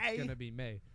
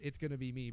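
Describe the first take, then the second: First: The last word is drawn out like 'May'. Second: The last word has the plain 'ee' vowel. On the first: "but he says" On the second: "he pronounces "It's gonna be me,""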